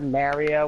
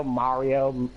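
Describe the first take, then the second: First: "Mario" with first vowel as in "marry"; "Mario" with a short eh in the first syllable; variant "Mario". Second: "Mario" with an open ah first; "Mario" with first vowel as in "father"; own "Mario". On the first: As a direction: say "Mario" like "Mary-o". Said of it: "I've heard Mario, Mario". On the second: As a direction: say "Mario" as "Mah-rio". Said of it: "I say Mario". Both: Shown as a demonstration.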